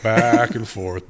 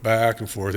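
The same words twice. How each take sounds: First: Slow drawn out. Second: Said in the usual way. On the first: Shown as a demonstration. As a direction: back and forth stretched slowly.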